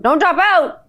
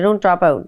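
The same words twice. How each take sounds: First: High exclaimed warning; emphatic call. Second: Said in the usual way. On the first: Pretend. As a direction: call it out, pitched up. Repeats the warning louder.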